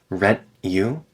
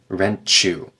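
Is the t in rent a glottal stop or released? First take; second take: glottal stop; released. First: The t in rent is a glottal stop. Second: The t in rent is released, not glottal.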